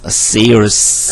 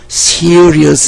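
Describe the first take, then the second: First: The first s is strong and tense. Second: The first s is soft and plain. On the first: The speaker calls it right. "serious 쌍슛" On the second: The speaker calls it wrong. "특히 경상도 학생들은 serious 이렇게 하는 것 같더라고요"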